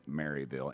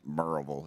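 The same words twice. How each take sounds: First: It is said the way outsiders would say it. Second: It is said the way local residents say it. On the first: It is how someone from elsewhere says it. "but it's you would pronounce it Maryville" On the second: It is how people from the town say it. "It's pronounced Maryville if you're from there"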